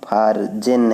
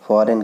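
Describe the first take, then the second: First: A g sound is heard in the middle. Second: No g sound is heard in the middle. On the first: The speaker calls it wrong. "कहीं भी इसको हम फारजेन नहीं कहते हैं" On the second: The speaker calls it right. "फॉरेन कहते हैं"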